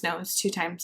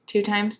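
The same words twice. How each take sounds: First: Said in the usual way. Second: Questioning. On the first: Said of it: "That's what I said at the beginning". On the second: Real, not acted.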